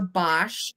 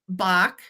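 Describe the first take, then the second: First: The name ends with a 'sh' sound. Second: The name ends with a hard 'k' sound. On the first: "Some people pronounce it Bosch" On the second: "I looked online and it says Bach"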